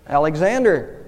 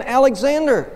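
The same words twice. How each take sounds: First: Subdued, slightly hesitant answer. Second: Much higher, raised-voice reply; emphatic answer. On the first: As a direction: answer with a touch of reluctance. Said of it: "the man said rather hesitantly". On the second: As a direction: give the name on a high pitch. Soldier answers emperor a second time. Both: A narrator's reading.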